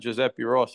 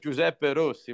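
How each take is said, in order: First: The name is said with an American accent. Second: The name is said with an Italian accent. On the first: The speaker calls it wrong. "My name is not Giuseppe Rossi" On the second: The speaker calls it right. "My name is Giuseppe Rossi"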